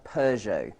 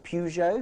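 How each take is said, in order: First: It is said with a British pronunciation. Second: It is said with an American pronunciation. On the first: "what we would call in Britain" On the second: "it's pronounced in America"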